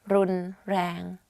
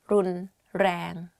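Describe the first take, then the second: The two takes are said the same way.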